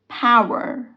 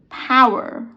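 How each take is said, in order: No difference in how they are said.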